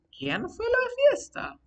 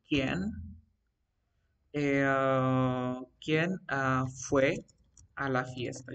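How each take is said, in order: First: Much higher acted question; asking a question. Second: Word by word, with long pauses; halting dictation. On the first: Teacher demonstrates asking about the party, high questioning tone. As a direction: pitch it right up as a real question. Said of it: "Estoy haciendo la pregunta". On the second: Teacher composes an example about the party, halting dictation. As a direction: feel out the sentence slowly as if writing it. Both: Shown as a demonstration.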